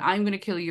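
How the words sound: It is said in a sweet childlike voice.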